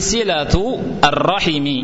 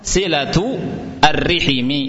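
First: R takes an a vowel; h takes i. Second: R takes an i vowel; h takes i. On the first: "ra-nya di fathah, ha-nya di kasrah" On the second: "ra-nya di kasrah, ha-nya di kasrah"

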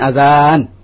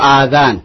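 First: The first vowel is kept short. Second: The first vowel is held long. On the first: It means the call to prayer. "Di sini adhan" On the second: It means ears. "Nanti maknanya beda lagi kalau adhan"

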